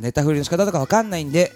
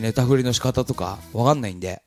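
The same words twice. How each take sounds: First: It is read in a cute, endearing tone. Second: It is read in a provocative, needling tone. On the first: The speaker seems charmingly unsure. "そう読むとちょっと可愛らしい" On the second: The speaker seems to be trying to annoy people. "人のこうなんか怒りに触れよう触れようとするような"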